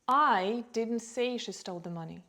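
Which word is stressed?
I. The stress is on the word "I". Someone else said it. "maybe someone else said it"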